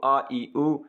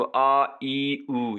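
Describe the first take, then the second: First: आ ई ऊ as short, quick vowel sounds. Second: आ ई ऊ each drawn out long; long vowels. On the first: Teacher showing students short vowel sounds, short vowels. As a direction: say आ ई ऊ briefly, without stretching them. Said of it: "अगर short हो तो". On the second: Teacher showing students long vowel sounds, long vowels. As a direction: stretch every vowel in आ ई ऊ. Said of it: "अगर थोड़ा सा long हो तो". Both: Shown as a demonstration.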